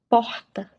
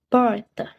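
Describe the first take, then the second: First: The R is made deep in the throat. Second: The R is made with a curled tongue. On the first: This is typical of Rio de Janeiro. "É assim o som do R gutural" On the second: This is typical of inland São Paulo. "É assim que ele soa, mais ou menos"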